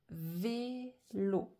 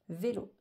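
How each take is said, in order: First: VÉLO cut into vé, lo; syllable by syllable. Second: Said in the usual way. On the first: Shown as a demonstration. Teacher showing vélo has two syllables, syllable by syllable. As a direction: pause between the syllables of vélo. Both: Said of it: "j'ai deux syllabes".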